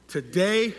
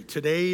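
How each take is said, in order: First: Like you mean it. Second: Said in the usual way. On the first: Shown as a demonstration. Preacher leading the congregation in a declaration, like he means it. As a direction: lead the crowd in declaring it. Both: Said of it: "like you mean it".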